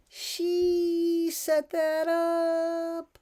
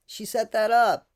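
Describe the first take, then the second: First: She set that up drawn out very slowly and higher; slow emphatic. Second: Said in the usual way. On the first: Acted. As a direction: stretch every word of she set that up, pointed.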